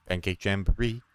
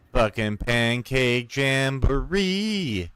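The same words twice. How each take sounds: First: Said in the usual way. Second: Slow, drawn-out proclamation of the name; gleeful announcement. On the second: Real, not acted. Announcing his pet event to viewers, slow gleeful proclamation. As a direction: savour every syllable like a fanfare. Triumphant reveal of silly event.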